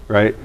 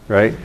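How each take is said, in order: The two takes are said the same way.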